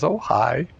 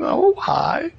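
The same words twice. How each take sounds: First: Said in the usual way. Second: Squeaky high falsetto greeting; nervous cheery hi, voice jumping way up; startled polite hi. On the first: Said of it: "and he says". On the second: Retold or imitated. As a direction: force out a high, strained friendly hello. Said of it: "he sees her as this old hag".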